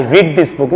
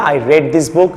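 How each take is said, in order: First: "read" said as "reed"; the wrong "reed" vowel in read; mispronounced past "read". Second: "read" said as "red"; correct past "read". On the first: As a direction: say read with a long "ee", rhyming with need. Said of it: "না". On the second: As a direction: say read with a short "e", rhyming with bed. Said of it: "রেড". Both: Shown as a demonstration.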